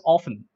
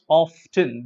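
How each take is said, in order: First: "often" with a silent t, off-en; correct pronunciation. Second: "often" with the t sounded, off-ten; wrong pronunciation. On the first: Teacher giving students the right often. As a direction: drop the t in "often". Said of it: "The correct pronunciation is often". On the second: Teacher showing students the wrong often. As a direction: pronounce the t in "often". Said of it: "it's not often". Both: Shown as a demonstration.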